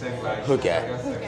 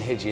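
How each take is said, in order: First: The word is said like 'hoo-gah'. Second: The word is said like 'hee-jee'. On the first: The speaker calls it right. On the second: The speaker calls it wrong.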